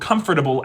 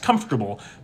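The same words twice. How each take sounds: First: The sounds come in their usual order. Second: Two sounds in the word trade places. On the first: "or comfortable" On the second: "as comfortable, that's metathesis"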